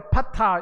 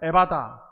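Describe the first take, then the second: First: The second consonant is an aspirated p sound. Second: The second consonant is a soft b sound. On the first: This is the original Aramaic form. "아람어로 에파타" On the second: This is the Korean written form. "이걸 그냥 음력으로 쓰게 되면 에바다"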